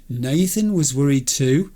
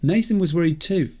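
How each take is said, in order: First: Rising in disbelief; stunned rising question; incredulous echo. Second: Said in the usual way. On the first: Real, not acted. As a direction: repeat it as if you can't believe it. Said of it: "Somebody pinch me". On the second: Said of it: "reading Nathan message".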